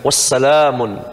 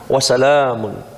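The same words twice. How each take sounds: First: The word ends with an added 'n' sound. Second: The word ends on a vowel without 'n'. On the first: The speaker calls it wrong. "bukan wassalamun" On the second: The speaker calls it right. "Wassalamun, ya"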